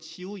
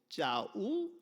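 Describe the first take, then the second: First: The name begins with a soft 'ji' sound. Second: The name begins with a tense 'jja' sound. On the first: This is the name as it should be said. The speaker calls it right. "원래 이름 지우 이렇게" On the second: Someone unfamiliar with the name mispronounced it. The speaker calls it wrong. "못 부르고 짜우 이렇게 이름을 좀 부르니까"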